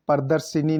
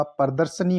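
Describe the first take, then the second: First: प्रदर्शिनी with i before the n; mispronounced प्रदर्शनी. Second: Said in the usual way. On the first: Shown as a demonstration. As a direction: say प्रदर्शिनी as "pradar-shi-ni". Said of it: "प्रदर्शिनी नहीं होता". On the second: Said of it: "प्रदर्शनी होता है".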